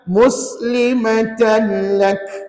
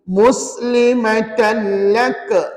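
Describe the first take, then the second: First: The final k is released softly with breath. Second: The final k is released with a bounce. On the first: The speaker calls it right. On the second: The speaker calls it wrong.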